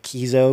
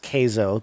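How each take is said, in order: First: The first vowel sounds like 'key'. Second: The first vowel sounds like 'kay'. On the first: The speaker calls it wrong. "people are going to mispronounce it and say Kizo" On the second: The speaker calls it right. "pronounced Kzo, K A Y Z O is the pronunciation"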